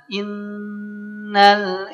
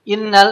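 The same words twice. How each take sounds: First: The nasal sound is held long through the nose. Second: The nasal sound is cut short quickly. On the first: The speaker calls it right. "rasakan dulu" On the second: The speaker calls it wrong. "kalau Bapak Ibu baca gunnah tergesa-gesa, nggak akan sempat"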